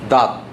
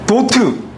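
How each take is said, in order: First: It is one short syllable ending in t. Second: It is two syllables with an added final vowel. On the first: The speaker calls it right. "영어 발음은" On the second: The speaker calls it wrong. "콩그리스 발음이잖아"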